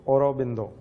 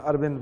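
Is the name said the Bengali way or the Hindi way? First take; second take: Bengali; Hindi. First: It starts with 'au' and has a 'b' sound. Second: It starts with 'a' and has a 'v' sound. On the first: "अगर pronounce आप बंगाली में करेंगे तो औरबिंदो" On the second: "Hindi में अरविंद बोलते हैं"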